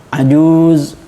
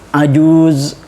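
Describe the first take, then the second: Both takes have the same delivery.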